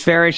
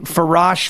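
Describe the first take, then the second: First: The second syllable has an 'ish' vowel. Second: The second syllable has an 'ash' vowel. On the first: The speaker calls it right. "it's Farish, rhymes with parish" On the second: The speaker calls it wrong. "people mispronounce my name all the time"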